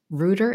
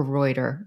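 First: "Reuter" said as ROO-der; first syllable of "Reuter" rhymes with "who"; alternative pronunciation. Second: "Reuter" said as ROY-der; first syllable of "Reuter" rhymes with "boy"; alternative pronunciation. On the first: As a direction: say "Reuter" with an oo vowel, like rooter. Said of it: "or Reuter?". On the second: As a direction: say "Reuter" with an oy vowel, like royter. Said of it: "is it [name]". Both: Shown as a demonstration.

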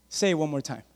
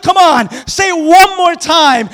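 First: Quiet taunt. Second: Slow, loud challenge; loud taunt. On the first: David murmurs a dare at Goliath, softly. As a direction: dare him under your breath. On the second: David dares Goliath to repeat it, loudly. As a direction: dare him to his face. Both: Acted.

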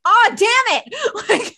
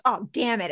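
First: Slow, higher, louder mock groan; drawn-out exasperation. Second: Said in the usual way. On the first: Imitating Jessica's exasperation at the collapse, slow and loud. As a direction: stretch it out like a fed-up coworker. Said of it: "Jessica's like". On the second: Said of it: "Will goes".

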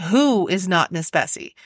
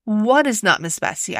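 First: "who" picked out, then falling to the end; a corrected question, weight on "who"; stress on WHO. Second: Said in the usual way. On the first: Acted. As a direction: correct yourself by leaning on "who". Self-correction, who replaces what.

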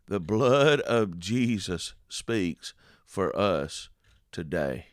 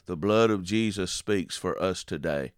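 First: Drawn out slowly, each word weighted; solemn slowed proclamation; slow emphatic repeat. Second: Said in the usual way. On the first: Shown as a demonstration. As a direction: let the words land one by one. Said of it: "slow emphatic repeat". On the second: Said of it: "plain first take".

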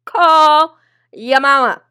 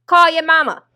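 First: Loud, slow, stretched-out punchline; hammering the punchline home, slow and loud; slow drawn-out repeat. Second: High, loud sarcastic order; a loud jab telling the man to call his mama; loud mock command. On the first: Retold or imitated. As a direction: draw every word out, loud and slow. Repeated punchline, slowed second take. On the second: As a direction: bark it at him, loud and high. Repeated punchline, first take.

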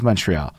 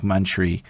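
First: "Montreal" said in full as "mun-tree-all"; "Montreal" the English way, ending in "all"; English pronunciation. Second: "Montreal" clipped to two syllables, "mun-tree"; "Montreal" without its last syllable, ending on "tree"; slang pronunciation. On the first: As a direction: give "Montreal" all three syllables, English style. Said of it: "That, the English way". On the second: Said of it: "like, some slang shit". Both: Shown as a demonstration.

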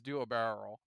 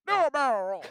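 First: Said in the usual way. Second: Higher, louder Peppy impression. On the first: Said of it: "we only know Peppy's voice". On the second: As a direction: call it out like old Peppy. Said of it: "Peppy's voice".

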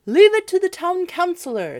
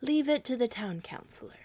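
First: High, loud chorus of townsfolk; citizens' high voices. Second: Higher echo of the townsfolk; townsfolk repeating. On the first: Citizens reassuring one another, high and loud. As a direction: pipe up as the townsfolk. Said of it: "said the citizens one to another". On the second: Good people of Hamel repeating the council, a bit higher. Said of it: "repeated with their councillors". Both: A narrator's reading.

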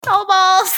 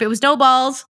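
First: Higher, shouted "No balls"; mock kid taunt. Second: Said in the usual way. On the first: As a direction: taunt like a schoolkid. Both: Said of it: "That was my thing growing up".

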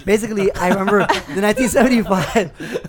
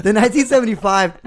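First: Said in the usual way. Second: "the nineteen seventy-five" said louder and higher with more punch; hyped-up announcer push on "the nineteen seventy-five"; more energy. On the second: Shown as a demonstration. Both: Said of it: "Now the energy's up".

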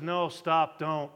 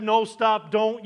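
First: Dry, low, sarcastic no stop don't; deadpan sarcastic warning. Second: Firm, louder parent warning; a hint of a stern parent. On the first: Retold or imitated. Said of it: "that sarcastic to". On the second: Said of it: "if your mother or father would have said".

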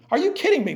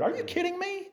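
First: Louder, punching kidding; a preacher repeating it with force; emphatic disbelief. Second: Incredulous. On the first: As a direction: hit kidding hard, fully incredulous. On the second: Incredulous at calling it weird. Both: Real, not acted.

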